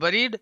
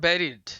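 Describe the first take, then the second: First: The first vowel is a short 'uh' sound. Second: The first vowel is an 'eh' sound. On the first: The speaker calls it wrong. "बरीड पढ़ते आ रहे थे" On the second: The speaker calls it right. "उच्चारण होता है बेरिड"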